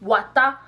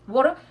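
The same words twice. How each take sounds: First: It is said with a Pidgin English accent. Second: It is said with a British English accent. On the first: "en pidgin" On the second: "en anglais britannique, they're going to say water"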